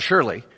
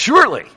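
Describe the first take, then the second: First: The word is said weakly and hesitantly. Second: The word is said firmly and emphatically. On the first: The speaker is not certain. The speaker calls it wrong. "It's not surely" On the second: The speaker is completely certain. The speaker calls it right. "This is for sure"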